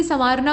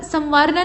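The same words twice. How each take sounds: First: संवारना with a nasal vowel; correct nasalised form. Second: संवारना with a full m; wrong nasal form. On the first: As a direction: say संवारना as sãvarna. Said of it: "बल्कि संवारना होता है". (सही संवारना, अनुनासिक) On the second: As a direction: say संवारना as samvarna. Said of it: "संवारना नहीं". (गलत संवारना, म के साथ) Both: Shown as a demonstration.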